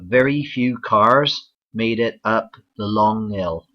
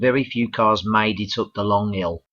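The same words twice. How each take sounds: First: It is said in a Bristol accent. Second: It is said in a Birmingham accent. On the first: "the southwest, for example in Bristol" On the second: "from Wales we go to Birmingham"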